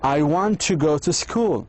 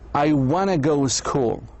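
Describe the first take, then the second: First: Want to is said fully as two words. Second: Want to is reduced and run together.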